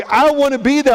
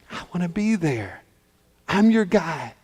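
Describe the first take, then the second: First: High, insistent plea; impassioned pleading. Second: Dropped to a soft, sincere promise; tender reassurance. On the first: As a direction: plead it out with full conviction. Joseph's plea at its height. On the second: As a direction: reassure her softly after the outburst. Joseph softens into reassurance. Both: Acted.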